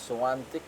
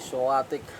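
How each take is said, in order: First: The name has an n sound before the t. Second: The name has no n sound before the t. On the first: This is how the players' side pronounces it. "Iba yung pronunciation nila" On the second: This is how the local commentators pronounce it. "Pero tayo ay Swatik"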